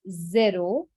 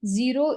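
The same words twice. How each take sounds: First: "zero" said the French way, zé-ro; French pronunciation. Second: Said in the usual way. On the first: Shown as a demonstration. Teacher models the number for beginners, "zero" as French zé-ro. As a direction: say "zero" with an "eh" in the first syllable, not "ee". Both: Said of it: "so zero is zero".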